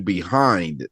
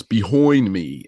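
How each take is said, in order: First: Said in the usual way. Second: "behind me," with behind said as behoind, slow; mocked accent vowel. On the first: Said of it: "when he was saying". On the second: Host mocking guest's Long Island "behind me," slowly. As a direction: stretch "behind" into a drawn-out behoind. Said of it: "you know, it was".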